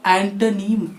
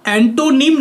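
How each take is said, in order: First: एंटोनिम with the middle reduced to "tuh"; एंटोनिम, short neutral vowel after "t"; correct pronunciation. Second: एंटोनिम with a full "toh" in the middle; एंटोनिम with a long round "o"; wrong pronunciation. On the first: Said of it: "इसको पढ़ते हैं". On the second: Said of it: "इसको एंटोनिम नहीं पढ़ते". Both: Shown as a demonstration.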